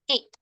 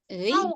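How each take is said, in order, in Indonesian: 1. Vokalnya adalah bunyi e biasa. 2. Vokalnya adalah bunyi ui yang meluncur. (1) "tapi dibacanya itu e" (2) "Bahasa Koreanya itu euy"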